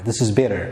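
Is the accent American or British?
American. It is said in an American accent. "The American English ደግሞ this is better ብለን እንጠቀማለን"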